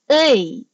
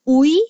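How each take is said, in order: First: The vowel is said with spread, smiling lips. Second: The vowel is said with rounded, pursed lips. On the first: The speaker calls it right. "So you should smile, then" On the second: The speaker calls it wrong. "pag ginunyon mo yung bibig mo, ... mali"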